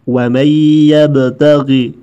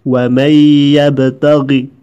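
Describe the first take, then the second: No difference in how they are said.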